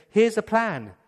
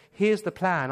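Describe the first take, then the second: First: Bossy scheming mother. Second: Said in the usual way. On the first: Retold or imitated. Rebecca scheming.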